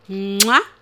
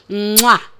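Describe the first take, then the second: The two takes are said the same way.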